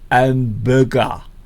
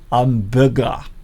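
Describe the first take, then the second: No difference in how they are said.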